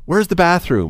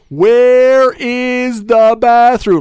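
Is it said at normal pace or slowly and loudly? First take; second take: normal pace; slowly, loudly. First: It is said at a normal pace and volume. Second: It is said slowly and loudly.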